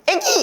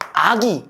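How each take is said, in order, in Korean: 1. 첫 모음은 앞쪽의 'eh' 소리입니다. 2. 첫 모음은 뒤쪽의 'ah' 소리입니다. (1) "졸라 쉬워" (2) "혀를 뒤로 뺐다가 앞으로 가야 돼"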